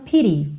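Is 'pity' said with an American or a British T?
American. The T is a soft American flap. "se você for cair para um sotaque mais americano"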